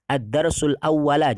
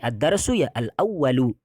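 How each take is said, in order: First: The final word ends with an a vowel. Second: The final word ends with a u vowel. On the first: The speaker calls it wrong. "jangan sampai dibaca" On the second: The speaker calls it right. "Tapi ad-darsu ya al-awwalu. Ikut ya"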